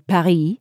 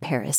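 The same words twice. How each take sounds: First: The name is pronounced with a French accent. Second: The name is pronounced with an English accent. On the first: It would sound affected to local listeners. "I didn't say Paris" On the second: It is the usual local way to say it. "I would say Paris. Since most people in this country do say Paris"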